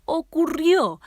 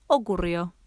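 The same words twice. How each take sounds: First: Higher and louder dramatic cry; dramatic repeat. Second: Said in the usual way. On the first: A narrator's reading. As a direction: repeat the word ¡Ocurrió! much higher and louder, falling.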